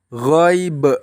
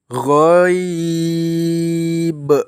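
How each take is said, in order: First: The long vowel is cut short. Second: The long vowel is stretched over several beats. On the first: The speaker calls it wrong. "Contoh yang salah ... dibaca pendek" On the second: The speaker calls it right. "dibaca panjang, boleh dua, boleh empat"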